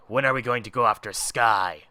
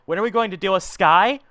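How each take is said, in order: First: Said in the usual way. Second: Irked echo. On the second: Acted. Boss repeats underling's question about Sky, irked. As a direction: throw the question back indignantly.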